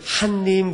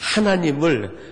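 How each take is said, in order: First: The word is squeezed into two syllables. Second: The word is said with all three syllables. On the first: The speaker calls it wrong. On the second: The speaker calls it right.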